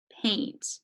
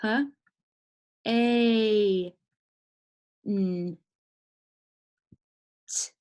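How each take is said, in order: First: "paint" said whole in one syllable; blended word. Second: "P, A, N, T" with long pauses between sounds; sounding out. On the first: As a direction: join the sounds into a single "paint". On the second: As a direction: hold "A" long, isolate each other sound. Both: Shown as a demonstration. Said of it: "Try and see what makes sense".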